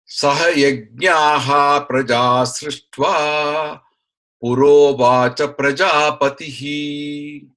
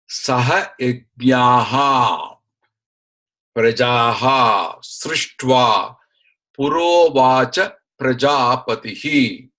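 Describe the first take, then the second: First: The words are joined together with sound changes. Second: The words are separated, each in its full form. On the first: "the sandhi that comes in" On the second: "give the split up"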